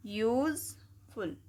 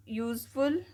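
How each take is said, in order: First: useful pulled apart slowly, syllable by syllable. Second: Said in the usual way. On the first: Shown as a demonstration. Teacher splitting a word into syllables for the class, slow. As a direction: sound out useful slowly in parts. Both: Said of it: "तोड़ के पढ़ते हैं हम".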